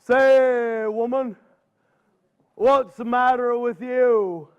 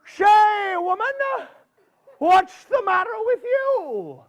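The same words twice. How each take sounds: First: Unhurried, slow bear voice at normal pitch; a calm big bear asking the old woman, slowly; Mister Bear's voice. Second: Put-on high, pitched-up critter voice calling out to the old woman; a folksy groundhog greeting her, pitched up high; Mister Groundhog's voice. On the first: Acted. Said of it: "Mister Bear says". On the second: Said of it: "Mister Groundhog saw her coming and he says".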